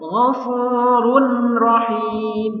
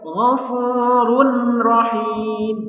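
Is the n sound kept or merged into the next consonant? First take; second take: kept; kept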